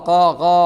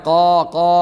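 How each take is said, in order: Both takes have the same delivery.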